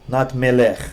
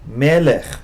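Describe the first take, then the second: First: The stress is on the last syllable. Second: The stress is on the first syllable. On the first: The speaker calls it wrong. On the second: The speaker calls it right.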